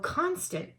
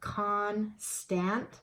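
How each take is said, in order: First: The second vowel is reduced to a schwa. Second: The second vowel is a full short vowel. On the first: The speaker calls it right. "it's saying it's schwa sound" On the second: The speaker calls it wrong. "I'm going to try the short sound first"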